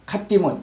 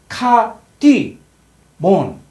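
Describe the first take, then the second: First: The two parts are joined without a break. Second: The two parts are said with a break.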